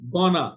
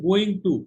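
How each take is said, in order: First: The words are slurred together into one. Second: Both words are said fully and separately.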